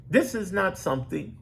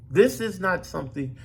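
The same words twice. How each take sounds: The two takes are said the same way.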